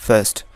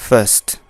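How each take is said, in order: Both takes have the same delivery.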